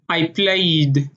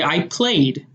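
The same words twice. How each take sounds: First: It is said in an Israeli accent. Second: It is said in an American accent.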